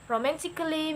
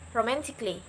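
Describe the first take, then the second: First: The 'a' in the ending is clearly pronounced. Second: The 'a' in the ending is left silent. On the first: The speaker calls it wrong. "I'm not pronouncing that like romantically" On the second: The speaker calls it right. "Cut A off. So you must pronounce it like"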